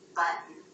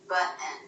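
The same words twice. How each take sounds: First: The final vowel is a short, neutral schwa. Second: The final vowel sounds like 'eh' in bed. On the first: The speaker calls it right. "We want that to be a schwa" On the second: The speaker calls it wrong. "with more of an eh as in bed vowel"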